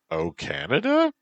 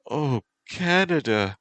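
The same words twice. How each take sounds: First: High, rising "Canada"; puzzled question. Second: High, loud "Canada", falling at the end; passionate exclamation. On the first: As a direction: echo "Canada" back as a question, voice climbing. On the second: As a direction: exclaim "Canada" as if swept away. Passionate exclamation, then questioned. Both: Acted.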